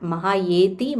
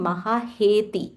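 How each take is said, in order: First: The third syllable starts with a y sound. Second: The third syllable starts with an h sound. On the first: The speaker calls it wrong. "It's not mahayeti" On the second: The speaker calls it right.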